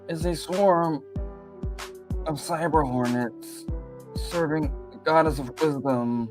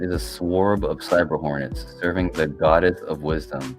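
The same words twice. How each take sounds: First: It is read in an imitated, put-on voice. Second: It is read in the speaker's natural voice.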